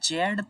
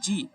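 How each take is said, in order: First: The letter is said as zed, British style. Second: The letter is said as zee, American style. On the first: This is the British English name. "जेड तो UK British English में बोला जाता है" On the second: This is the American English name. "जी American English में बोला जाता है"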